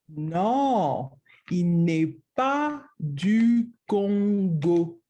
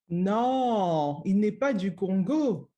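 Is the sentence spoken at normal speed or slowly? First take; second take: slowly; normal. First: It is spoken more slowly than normal. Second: It is spoken at a normal conversational speed.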